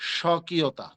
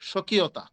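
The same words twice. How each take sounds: First: The first syllable is said with extra force. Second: The first syllable is said plainly, without extra force. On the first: "আর একটু চাপ দিয়ে বলি" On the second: "এমনে আমি সাধারণভাবে বলি"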